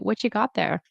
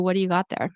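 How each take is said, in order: First: The words 'what do you' are squeezed together. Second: Each of the words 'what do you' is said separately. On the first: The speaker is relaxed and playful. "I feel like what you got there is more playful, um, can be a little more casual" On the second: The speaker is being more formal. "I'd probably say"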